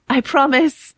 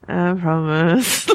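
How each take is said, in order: First: It is said brightly and clearly, like Arya. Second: It is mumbled unclearly, like Sansa.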